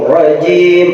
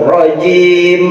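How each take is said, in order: Both takes have the same delivery.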